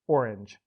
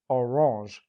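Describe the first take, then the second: First: The name is pronounced the English way. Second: The name is pronounced the French way. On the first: "as English speakers tend to pronounce it" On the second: "the town's present-day name"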